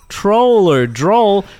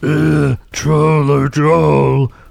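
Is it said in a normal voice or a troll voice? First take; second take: normal voice; troll voice. First: It is said in a normal speaking voice. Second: It is said in a put-on Trantor troll voice.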